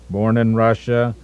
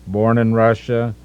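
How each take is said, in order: Both takes have the same delivery.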